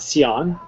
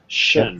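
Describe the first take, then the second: First: The syllable is said as two sounds, 'see-on'. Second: The syllable is said as one sound, 'shun'. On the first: The speaker calls it wrong. "Not sion" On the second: The speaker calls it right. "Because in English we'd say exception"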